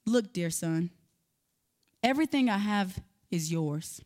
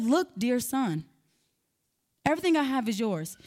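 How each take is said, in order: First: Soft, low, tender father's words; a father soothing his angry son, calm and gentle. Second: Calm and gentle. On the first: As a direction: speak gently to a hurt son. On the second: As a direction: take your time and soothe him. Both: Retold or imitated. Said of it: "in a calm, gentle manner".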